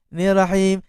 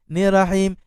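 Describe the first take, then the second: First: The doubled r sound is cut short. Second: The doubled r sound is cut short.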